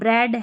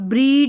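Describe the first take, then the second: First: The vowel is a short 'e' sound. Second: The vowel is a long 'ee' sound. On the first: The speaker calls it right. "ई ए का ए" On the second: The speaker calls it wrong. "ब्रीड... नहीं पढ़ रहे हैं"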